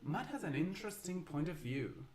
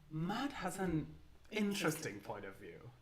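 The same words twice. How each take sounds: First: It sounds sincerely interested. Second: It sounds ironic and doubtful.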